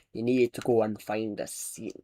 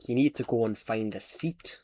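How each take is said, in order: First: A mild Scottish bus driver, a bit lower; Scottish accent. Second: Lightly voiced Scottish bus driver, lower; Scottish accent. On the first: Retold or imitated. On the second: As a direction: repeat the driver's line in a soft Scottish accent. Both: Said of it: "Scottish accent, please".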